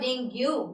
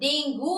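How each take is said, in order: First: The word ends with a yoo sound. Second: The word ends with an oo sound. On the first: "और डेंग्यू" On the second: "not डेंगू"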